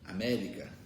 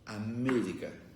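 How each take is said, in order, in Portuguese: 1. A primeira vogal E é aberta. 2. A primeira vogal E é fechada. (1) "Em português, a gente diria América" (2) "em espanhol, que só tem som fechado"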